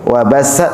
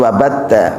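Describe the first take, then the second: First: The middle consonant is a hissing s sound. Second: The middle consonant is a hard t sound. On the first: "Wa bassa, sin" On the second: "bukan wa batta"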